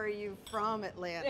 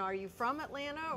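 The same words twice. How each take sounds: First: Pointed emphasis on "from"; stress on FROM. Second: Said in the usual way. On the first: Shown as a demonstration. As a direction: stretch the word "from" to mean truly native. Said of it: "or are you from Atlanta?". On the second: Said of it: "When you say, "Are you from Atlanta?".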